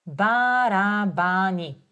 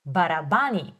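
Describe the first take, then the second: First: Барабани said slowly, ба-ра-ба-ни; slow demo. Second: Said in the usual way. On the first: Shown as a demonstration. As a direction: draw Барабани out syllable by syllable. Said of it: "teacher models word slowly". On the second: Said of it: "teacher models the word".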